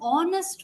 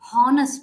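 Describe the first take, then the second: First: The word starts without an H sound. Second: The word starts with an H sound. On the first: The speaker calls it right. "H is actually written in the spelling but not pronounced" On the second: The speaker calls it wrong. "not honest"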